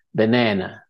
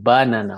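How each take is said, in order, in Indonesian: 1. Tekanannya ada pada suku kata kedua. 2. Tekanannya ada pada suku kata pertama. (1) "pada silabel yang kedua" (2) "orang Jepang itu menekankan pada ba"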